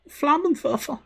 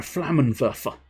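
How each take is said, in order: First: Very high, hammed-up German accent; camp German accent. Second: Said in the usual way. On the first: Streamer shows off German word, super camp German accent. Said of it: "My super camp German accent". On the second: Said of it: "as I believe the Germans would say".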